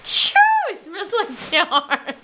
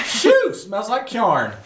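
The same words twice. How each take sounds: First: Slow, higher mock Southern drawl; drawn-out imitation Southern accent, laughing; attempted Southern accent. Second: High exclamation into slow Southern drawl; hammed-up Southern twang, drawn out; Southern accent. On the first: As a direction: copy the Southern twang, breaking into laughter. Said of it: "you say it and I repeat it". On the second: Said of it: "say some phrases in Southern". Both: Shown as a demonstration.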